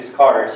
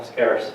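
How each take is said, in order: First: Accented slip on "scarce". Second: Said in the usual way. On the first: Real, not acted. Speaker listing what currency needs, accented slip on "scarce". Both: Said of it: "Sorry, accent".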